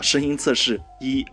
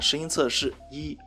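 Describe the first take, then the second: First: The voice is processed to sound lower and deeper. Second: Background noise is removed, leaving a cleaner voice. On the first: "沉稳的男生的音色模式…低沉和性感" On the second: "降噪模式啊…声音应该是很明显的变干净了"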